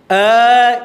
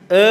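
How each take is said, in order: First: The mouth is wide open, giving a clear 'a'. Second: The mouth is barely open, so it sounds like 'e'. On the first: The speaker calls it right. "Dari sini ya" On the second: The speaker calls it wrong. "bukan e"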